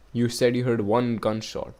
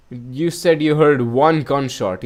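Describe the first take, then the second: First: Said in the usual way. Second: Louder, slower "You said you heard one gunshot"; a detective pressing the point; pressing the question. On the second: Shown as a demonstration. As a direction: lean hard on "said" to press the witness. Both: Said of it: "that's exactly my question".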